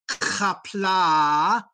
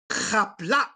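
First: The final vowel ends openly without a cutoff. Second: The final vowel is cut off abruptly. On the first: The speaker calls it wrong. "do not say" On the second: The speaker calls it right. "the apostrophe cuts off the sound at the end"

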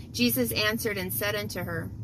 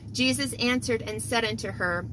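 Both takes have the same delivery.

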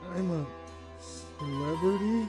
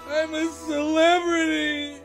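First: It is said quietly and hesitantly. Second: It is said loudly and firmly.

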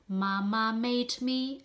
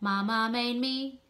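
First: The D at the end of made is heard. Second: The D at the end of made is dropped. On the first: The speaker calls it right. "pronounce the made, so the little D" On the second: The speaker calls it wrong. "not to swallow it, not mama made me, where is the D"

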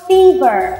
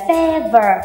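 First: The first vowel is a long ee sound. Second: The first vowel is a short eh sound. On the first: The speaker calls it right. "đây là âm y chứ không phải là âm e" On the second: The speaker calls it wrong. "rất nhiều bạn học viên của mình đọc từ vựng này là"

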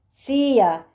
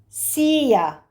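The two takes are said the same way.

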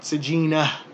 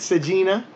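First: The word ends with a breathy h sound. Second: The word ends without a breathy h sound. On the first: "it's a really hard sound to get out" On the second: "without that ha sound"

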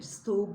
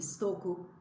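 First: The k is dropped and the vowel is lengthened. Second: A clear k sound is heard mid-word. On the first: The speaker calls it wrong. "Stoğu, bloğu değil" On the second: The speaker calls it right. "stoku, bloku gibi"

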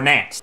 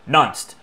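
First: The word begins with a short 'nan' sound. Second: The word begins with a short 'nun' sound. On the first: "or nanced" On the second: "it might say nunced"

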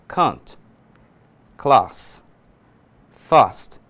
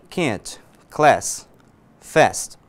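First: The vowel A is more open, in a British accent. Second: The vowel A is flatter, in an American accent. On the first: "para o inglês britânico, eu vou dizer" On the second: "O americano"

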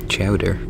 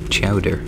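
No difference in how they are said.

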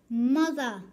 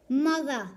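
Both takes have the same delivery.

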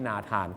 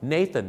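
First: The name is said with Thai vowels. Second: The name is said with English vowels. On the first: The speaker calls it wrong. "ไม่ใช่นาธาน" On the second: The speaker calls it right. "ฝากไว้หนึ่งชื่อครับ"

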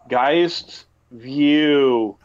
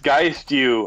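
First: The name is said very slowly. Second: The name is said at a normal pace.

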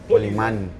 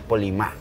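First: The name ends with an n sound. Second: The name ends on an open vowel. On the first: The speaker calls it wrong. "Polimán es como un superhéroe" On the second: The speaker calls it right. "Pero yo soy Polimá"

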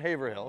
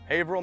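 First: The name is said with an outsider pronunciation. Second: The name is said with the local pronunciation. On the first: This is how visitors from elsewhere say it. The speaker calls it wrong. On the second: This is how the place is properly called. The speaker calls it right.

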